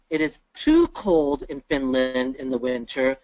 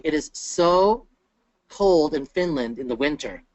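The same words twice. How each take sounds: First: TOO stretched out and lifted; teacher's emphatic, drawn-out "too"; stress on TOO. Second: SO held long, then a short pause; teacher's emphatic, lingering "so"; stress on SO. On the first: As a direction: lean slowly on "too" before "cold". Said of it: "so and too mean two very different". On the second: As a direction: draw out "so" before finishing the sentence. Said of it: "so versus the word to". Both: Shown as a demonstration.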